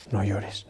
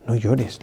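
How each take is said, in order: First: Susurrado y más suave, íntimo; susurro. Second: Said in the usual way. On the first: Acted. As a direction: dilo en un susurro, como un secreto. Repite el consuelo susurrando. (Jesús susurra a la viuda: susurro tierno)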